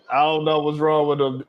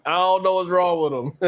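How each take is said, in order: First: Said in the usual way. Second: Amused disbelief. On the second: Real, not acted. Host shaking his head at the dancing man, in amused disbelief. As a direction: say it again, shaking your head at them.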